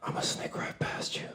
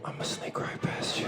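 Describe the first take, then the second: First: Breathy unvoiced whisper, close and creepy; old lady whisper. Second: Unvoiced whisper, repeated for the crowd; old lady whisper. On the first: Old lady sneaking past him at a conference, creepy whisper. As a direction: whisper it right at his neck. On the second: Comic re-enacting the old lady to the crowd, whisper. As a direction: breathe it out like a sneaky granny. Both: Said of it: "she whispered on the back of my neck".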